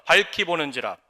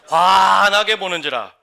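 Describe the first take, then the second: First: Said in the usual way. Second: Proclaimed loudly. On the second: Shown as a demonstration. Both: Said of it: "저를 따라하세요".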